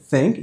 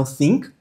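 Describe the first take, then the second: First: "think" said as "thenk"; eh-like vowel in "think"; short-i pronunciation. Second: "think" said as "theenk"; tense ee in "think"; wrong long-i version. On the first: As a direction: relax the i in "think" toward ê. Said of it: "o I com som de E". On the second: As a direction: exaggerate the mistaken ee of "think". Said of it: "não think". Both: Shown as a demonstration.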